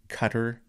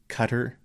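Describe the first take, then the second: The two takes are said the same way.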